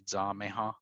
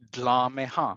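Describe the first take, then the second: First: It is said the North Carolina Cherokee way. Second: It is said the Oklahoma Cherokee way.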